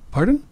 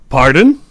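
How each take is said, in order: First: It sounds calm and polite. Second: It sounds angry and offended. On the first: The speaker did not hear clearly. "他没听清我说什么，他说 Pardon，这样是 OK 的" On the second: The speaker is offended by what was said. "他就很生气，你说什么？"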